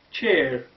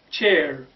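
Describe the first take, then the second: No difference in how they are said.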